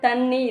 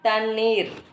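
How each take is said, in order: First: The word ends short, as thanni. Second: The word ends with a long vowel and r. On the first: The speaker calls it wrong. "தண்ணி இல்லை" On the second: The speaker calls it right.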